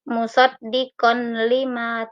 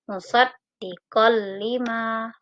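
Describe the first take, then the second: First: The n sound is kept before the l. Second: The n sound is merged into the l. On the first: The speaker calls it wrong. "Tidak boleh dibaca" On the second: The speaker calls it right. "fathah tain dimasukkan ke dalam huruf lam"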